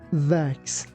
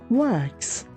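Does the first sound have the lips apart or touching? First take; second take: touching; apart. First: The lips touch together for the first sound. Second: The lips stay apart for the first sound. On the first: The speaker calls it wrong. "be careful that we don't say wax. Your lips shouldn't touch each other" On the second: The speaker calls it right. "That's why we say wax"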